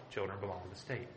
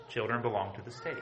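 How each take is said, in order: First: Repeated softer and lower, sinking; quiet echo. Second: Said in the usual way. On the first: Shown as a demonstration. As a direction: let the repeat drop to a low, hushed echo.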